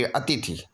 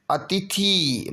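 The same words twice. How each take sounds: First: अतिथि lower, softer, brief thi; short final i. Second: अतिथि slow with a held thee; long final ee. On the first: Teacher giving the correction, अतिथि with short thi. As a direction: clip the end of अतिथि. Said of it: "छोटी की". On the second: Teacher showing the error, अतिथि with long thee. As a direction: stretch the end of अतिथि. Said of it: "बड़ी की मात्रा न". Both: Shown as a demonstration.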